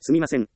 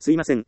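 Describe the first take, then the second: First: The middle sound is a clear m sound. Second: The middle sound is a vowel, with no m. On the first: The apology sounds polite and sincere. The speaker calls it right. "すみません、と言う" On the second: The apology sounds casual and not sincere. The speaker calls it wrong. "すいません、ではなく"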